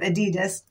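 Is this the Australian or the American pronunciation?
American. It is said the American way. "instead of Adidas"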